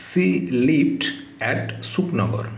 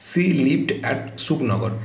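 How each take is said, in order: First: Said in the usual way. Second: "she lived at Sukhnagar" read very slowly; slow model answer. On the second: Shown as a demonstration. Teacher reads the answer to the class, very slow. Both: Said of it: "দেখো".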